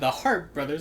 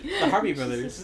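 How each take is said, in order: First: The name is said with one syllable. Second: The name is said with two syllables. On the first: The speaker calls it right. "That's how you say it" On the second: The speaker calls it wrong. "When I was typing this, I was like, the Harpy"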